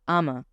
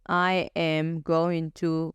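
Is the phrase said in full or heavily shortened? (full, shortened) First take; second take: shortened; full. First: The words blur into one short two-syllable word. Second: Every word is said fully and separately. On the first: "waxaad dhihi kartaa ama" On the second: "Intaad dhihi lahayd I am going to"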